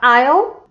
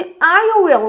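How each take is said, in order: First: The two words merge into one short syllable. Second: Both words are said separately and in full. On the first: "vai ficar I'll" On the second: "a contração de I will"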